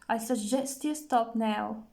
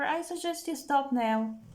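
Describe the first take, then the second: First: The word suggest carries the main stress. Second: The word stop carries the main stress. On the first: The advice is offered tentatively. "more stress on suggest. Suggest makes it more tentative" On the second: The advice is given forcefully. "more stress on the verb makes it more forceful"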